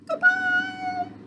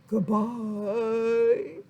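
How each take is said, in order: First: It is said in a high voice. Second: It is said in a low voice.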